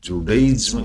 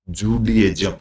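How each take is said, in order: First: The second syllable sounds like 'die'. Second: The second syllable sounds like 'dee'. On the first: The speaker calls it wrong. "इसको जुडाइज्म नहीं, नहीं बोलते हैं" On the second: The speaker calls it right. "इसको बोलने की भाषा जुडियज्म"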